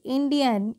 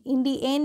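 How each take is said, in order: First: इंडियन ending in a short schwa, 'in-di-yun'; correct pronunciation demo. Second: इंडियन ending wrongly in 'en', 'in-di-YEN'; mispronunciation demo. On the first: Teacher modelling for learners, इंडियन with 'yun' ending. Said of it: "क्या पढ़ेंगे". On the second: Teacher showing what to avoid, इंडियन with 'yen' ending. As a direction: say इंडियन with an e in the last syllable. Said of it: "इंडियन नहीं". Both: Shown as a demonstration.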